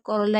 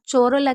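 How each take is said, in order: First: The word begins with a k sound. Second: The word begins with a ch sound. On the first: The speaker calls it right. "कोरोला ही पढ़े" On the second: The speaker calls it wrong. "चोरोला की जगह"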